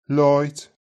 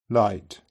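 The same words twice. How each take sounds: First: Light said like "loit"; Light with a rounded oi vowel; Brummie Light. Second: Said in the usual way. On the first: Shown as a demonstration. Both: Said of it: "The I diphthong is very distinctive in Brummie".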